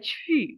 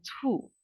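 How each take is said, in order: First: The vowel is 'ee' said with rounded lips. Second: The vowel is a plain 'oo' sound. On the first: The speaker calls it right. "Jadi dia 去" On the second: The speaker calls it wrong. "bukan 处"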